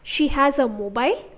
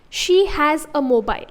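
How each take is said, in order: First: The pitch rises at the end. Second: The pitch falls at the end. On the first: "if I change the pitching to say a higher frequency in the end" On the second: "I'm tapering, I'm lowering the pitch in the end"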